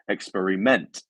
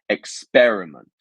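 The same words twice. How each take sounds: First: The stress is not on the second syllable. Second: The stress is on the second syllable. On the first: The speaker calls it wrong. "not experiment" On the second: The speaker calls it right. "our second part here that is our stress syllable"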